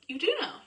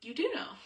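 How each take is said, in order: First: High, loud, airy "You do know."; playful coaxing. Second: Firm, pointed "You do know."; pushing nudge. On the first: Shown as a demonstration. Wife coaxing husband to answer, playful and high. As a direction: tease him into answering, sing-song. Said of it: "that's not my normal conversation voice". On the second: Retold or imitated. Wife nudging husband to answer, pointed. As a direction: press him to admit "You do know.". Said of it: "like that, what my voice just did".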